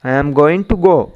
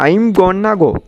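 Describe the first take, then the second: First: 'Going to' is said in full, unreduced. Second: 'Going to' is reduced to 'gonna'.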